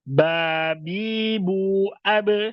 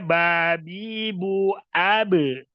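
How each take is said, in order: First: The final stop is short and clipped. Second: The final stop is drawn out with a vowel. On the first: The speaker calls it right. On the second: The speaker calls it wrong.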